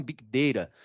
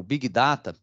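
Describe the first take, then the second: First: "Data" said as "day-ra" with a tapped t; "Big Data" with English vowel in "Data"; English-style "Big Data". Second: "Data" with an open Portuguese "dah-ta"; "Big Data" pronounced as in Brazilian Portuguese; Portuguese-adapted "Big Data". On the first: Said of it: "a gente teria que falar". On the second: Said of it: "já é uma versão aportuguesada". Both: Shown as a demonstration.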